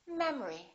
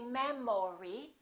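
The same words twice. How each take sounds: First: The second vowel is reduced to a weak uh. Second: The second vowel is said fully, not reduced. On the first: The speaker calls it right. "we say memory" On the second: The speaker calls it wrong. "We don't say"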